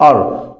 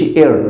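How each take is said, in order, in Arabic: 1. ما فيش انزلاق قبل الـ r. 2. في الصوت انزلاق 'ee' قبل الـ r. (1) "بتتنطق ار" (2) "بتتنطقش اير"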